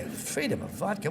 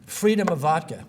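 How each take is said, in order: First: Softer, rising scornful repeat of "Freedom of vodka"; scornful echo. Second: Said in the usual way. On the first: Retold or imitated. Speaker mocking a bad slogan to the class, soft scornful disbelief. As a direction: sneer "Freedom of vodka" back as a baffled question. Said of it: "what is that stupidity?". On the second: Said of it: "whatever the hell that means".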